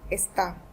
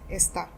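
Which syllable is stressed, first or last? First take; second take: last; first. First: The stress is on the last syllable. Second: The stress is on the first syllable. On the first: It means he, she or you is. "the stress is on A since we have this accent" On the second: It means this. "esta without the accent means this"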